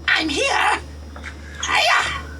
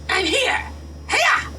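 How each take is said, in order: First: It is said at a normal pace. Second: It is said at a faster pace.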